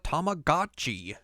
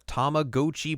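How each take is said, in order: First: The word is said in an American-style way. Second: The word is said in a Japanese-style way. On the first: This is how it was commonly said in the US. "everyone in America was always like" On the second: This is the original, technically proper form. "I guess that would technically be the proper pronunciation"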